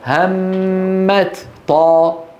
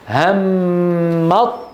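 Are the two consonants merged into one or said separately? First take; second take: separate; merged. First: The two consonants are articulated separately, one by one. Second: The two consonants merge into one doubled sound. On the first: "لو أظهرنا لقلنا" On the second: "فصعد مرة واحدة"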